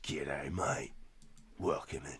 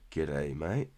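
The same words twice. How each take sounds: First: Softer, hammed-up Aussie drawl on mate; Aussie accent. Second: Light mock Aussie greeting; a first, lighter take at an Australian g'day; Aussie accent. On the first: Welcoming Jeremy in chat in a softer mock Aussie accent. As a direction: lean into a broad Australian twang, softer. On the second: Greeting a viewer in a light mock Aussie accent. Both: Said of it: "That was my Aussie impression".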